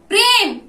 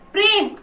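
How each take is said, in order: First: The name is called out at medium volume. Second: The name is called out in a soft voice.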